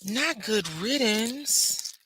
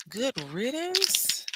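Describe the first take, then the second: First: NOT drawn out slow with a rising tune; slow, insistent "Not good riddance" with a lift on NOT; slowly correcting the phrase; stress on NOT. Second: "Good riddance?" rising high, slow and doubtful; slow incredulous question "Good riddance?"; doubtfully asking back. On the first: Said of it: "correcting her own wording". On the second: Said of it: "questioning the phrase". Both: Shown as a demonstration.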